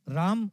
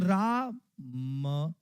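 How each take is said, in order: First: The word is said smoothly without a break. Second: The word is split with a break between syllables. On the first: "और आप बोलो राम" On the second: "ऐसे तोड़ करके बोलो"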